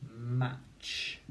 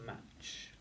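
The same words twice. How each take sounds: First: Said in the usual way. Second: «Match» whispered, much softer; whispered repeat. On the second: Shown as a demonstration. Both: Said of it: "the word is".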